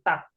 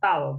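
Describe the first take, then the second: First: The word ends with a k sound. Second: The word ends with an l sound. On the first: The speaker calls it right. "tapi tak" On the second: The speaker calls it wrong. "bukan tal"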